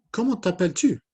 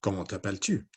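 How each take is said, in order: First: High, loud puppet question; high-pitched character voice; Inès puppet voice. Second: Understated puppet character, no squeak; Matisse puppet voice. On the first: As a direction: pipe up as a little puppet. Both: Acted. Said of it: "Matisse and Inez".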